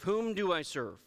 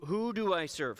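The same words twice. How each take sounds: First: "Whom" corrected and stressed, the m closed clearly; self-correction to whom. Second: Said in the usual way. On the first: Real, not acted. Pastor correcting his own grammar to the congregation, "Whom" stressed. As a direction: fix "Whom" deliberately, the proper form.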